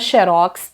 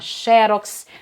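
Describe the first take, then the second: First: The stress is on the last syllable. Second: The stress is on the first syllable. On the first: "xerox até pode aparecer sem acento e aí a pronúncia muda" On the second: "Quando ela tem mais de uma sílaba e é paroxítona"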